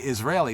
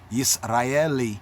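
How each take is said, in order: First: It is pronounced the English way, starting with 'iz'. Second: It is pronounced the Hebrew way, starting with 'yis'. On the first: "bringing it over into the English, one will say Israeli" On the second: "in Hebrew, Yisraeli, that's how it's said"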